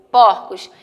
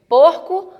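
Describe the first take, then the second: First: PORCOS with an open ó, pór-cos; PORCOS, stressed o open-mid. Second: PORCO with a closed ô, pôr-co; PORCO, stressed o close-mid. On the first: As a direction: say "porcos" with a wide ó, voice dropping. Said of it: "ele vai dar o som de aberto". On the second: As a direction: say "porco" with rounded ô. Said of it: "A tonicidade dela vai ser fechada". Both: Shown as a demonstration.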